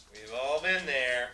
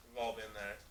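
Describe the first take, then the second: First: Drawn-out louder mock-solemn yiddish accent; slow, louder knowing repeat. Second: Said in the usual way. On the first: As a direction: stretch it out, louder, world-weary. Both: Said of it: "repeated drawn out".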